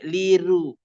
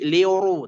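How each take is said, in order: First: The r is pronounced light and thin. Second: The r is pronounced heavy and thick. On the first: The speaker calls it wrong. "tidak dibaca liru" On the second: The speaker calls it right. "tetap tebal"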